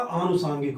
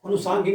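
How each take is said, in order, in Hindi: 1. पहला स्वर दीर्घ 'aa' है। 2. पहला स्वर ह्रस्व 'a' है। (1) "आनुसांगिक होता है" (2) "अनुसांगिक नहीं होता"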